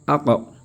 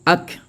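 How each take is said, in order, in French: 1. La consonne finale est relâchée avec un rebond et un écho. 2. La consonne finale s'arrête nettement, sans écho. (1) "quand tu rentres dans le Coran, ce n'est plus ak" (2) "c'est ak avec la lecture en général"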